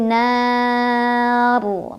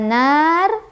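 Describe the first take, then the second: First: The final r is thick and heavy. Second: The final r is thin and light. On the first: The speaker calls it right. "Jadi tebal. Naru" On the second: The speaker calls it wrong. "Bukan nar"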